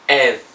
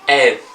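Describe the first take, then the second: No difference in how they are said.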